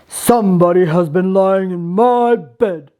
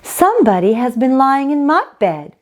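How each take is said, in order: First: It is said in a deep, gruff bear voice. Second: It is said in a medium-pitched bear voice.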